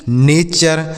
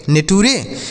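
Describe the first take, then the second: First: नेचर said as NAY-cher, with the ture ending as cher; correct pronunciation. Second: नेटूरे read letter by letter as ne-tu-re, the wrong way; wrong reading shown. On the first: Teacher giving students the correct reading of नेचर. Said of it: "इसे नेचर पढ़ना है". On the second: Teacher showing students the mistaken reading of नेटूरे. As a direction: sound out नेटूरे syllable by syllable like a beginner misreading it. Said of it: "यह गलत pronunciation है". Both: Shown as a demonstration.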